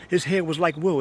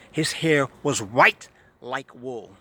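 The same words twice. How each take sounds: First: Said in the usual way. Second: Slow, with "white" leaned on hard; slow down and punch "white" as the correction; stress on white. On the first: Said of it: "It doesn't say his hair was like wool". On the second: Shown as a demonstration. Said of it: "It said his hair was white".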